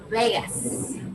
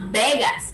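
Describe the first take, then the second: First: The first sound is made with lips apart. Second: The first sound is made with lips together. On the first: The speaker calls it right. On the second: The speaker calls it wrong. "It's not"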